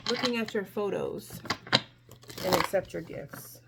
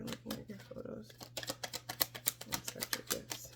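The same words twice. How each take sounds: First: Said in the usual way. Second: Hushed, breathy whisper of the card names. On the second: Real, not acted. Reader channeling to herself, whispering the cards. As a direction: murmur it to yourself, almost no voice.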